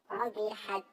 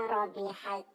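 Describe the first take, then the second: Both takes have the same delivery.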